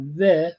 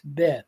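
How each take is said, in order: First: It starts with a soft 'v' sound. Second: It starts with a hard 'b' sound. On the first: The speaker calls it wrong. "Instead of ve for B" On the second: The speaker calls it right. "it makes the bait hard in pronunciation"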